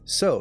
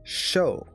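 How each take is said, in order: First: The word begins with a plain s sound. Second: The word begins with a sh sound. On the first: This is how the reader says it himself. "if I was to read it just myself normally" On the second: This is how the character in the clip said it. "There was a sh sound in there"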